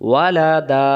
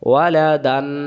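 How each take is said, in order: First: The word ends in a drawn-out vowel. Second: The word ends in an n sound. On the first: The reciter stops at this word. "এক জবর বাদ দিয়ে এক আলিফ টানতে হয়।" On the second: The reciter does not stop at this word. "আর যদি এটা না থাকতো তাহলে উচ্চারণ হতো ওয়ালা দান"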